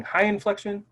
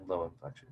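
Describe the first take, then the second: First: High inflection. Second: Low inflection. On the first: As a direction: pitch raised on "high inflection". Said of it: "when we're speaking high inflection". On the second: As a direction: pitch dropped on "low inflection". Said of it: "and then low inflection". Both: Shown as a demonstration.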